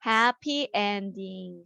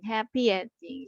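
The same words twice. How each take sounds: First: Slow, clear teacher model; slow model reading. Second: Said in the usual way. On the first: Shown as a demonstration. Teacher modelling the phrase to students, slow. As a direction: draw each word out for the kids. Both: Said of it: "행복한 결말".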